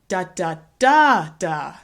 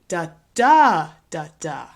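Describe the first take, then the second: First: The stress is on the third syllable. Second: The stress is on the second syllable. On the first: "What happens if we move the stress to the third syllable?" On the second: "Here's another stress pattern that we see with four-syllable words"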